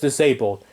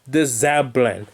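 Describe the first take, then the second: First: The word is pronounced in the usual standard way. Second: The word is pronounced in a garbled, nonstandard way. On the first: This is how it is said now. The speaker calls it right. "now I'm saying it right" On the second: This is how it was said as a child. The speaker calls it wrong.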